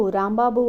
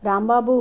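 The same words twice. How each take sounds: First: Second call of Rambabu, a bit louder, without the rise; calling again. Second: Louder call of Rambabu, rising at the end; calling his name. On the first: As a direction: call Rambabu once more, getting no answer. (మళ్ళీ రాంబాబు అని పిలుపు) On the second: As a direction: call out Rambabu to a wounded man. (Rambabu అని గట్టిగా పిలుపు) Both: A narrator's reading. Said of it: "అంటూ పిలిచింది".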